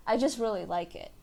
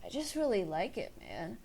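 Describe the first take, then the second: First: Said in the usual way. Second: Softer, laid-back stoner delivery trailing off on man; mellow, lazy stoner, fading out. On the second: Shown as a demonstration. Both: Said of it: "when you speak like this".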